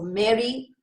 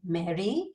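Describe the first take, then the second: First: The pitch falls on the name. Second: The pitch rises on the name. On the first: It is an order. "you're almost giving her an order" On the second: It is a question. "you raise that Mary"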